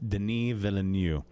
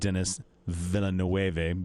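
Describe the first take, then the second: First: The name is said the French way. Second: The name is said the English way. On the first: The speaker calls it right. "It's Denis Villeneuve. He's French" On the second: The speaker calls it wrong. "most people think it's like Dennis Villeneuve because it looks like that, but it's not"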